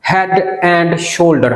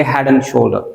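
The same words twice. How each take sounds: First: Very slow Head and shoulder; slow demo. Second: Head and shoulder with and said as ən, no d; silent d. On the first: Teacher introducing the example slowly. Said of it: "हम बोलेंगे head and shoulder". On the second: Teacher showing only the n sound in and. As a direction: drop the d of and. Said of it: "सिर्फ एन का sound आएगा". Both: Shown as a demonstration.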